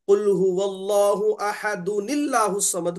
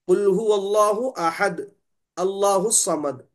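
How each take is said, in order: First: The phrases are joined without a pause. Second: There is a pause after ahad.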